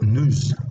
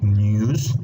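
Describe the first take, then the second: First: It is said in an American accent. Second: It is said in a British accent. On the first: "like in American English" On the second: "like in British English"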